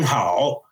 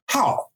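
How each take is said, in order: First: The tone does not fall sharply. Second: The tone falls sharply, like a fourth tone. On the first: This is the intended word. The speaker calls it right. "You're not saying how" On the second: This is a different word from the intended one. The speaker calls it wrong. "you're saying how, and it's a different word"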